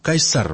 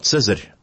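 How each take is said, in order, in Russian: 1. Имя начинается со звука k. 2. Имя начинается со звука ts. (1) "Они говорили Кайсар" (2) "Мы же говорим сейчас на испорченной латыни"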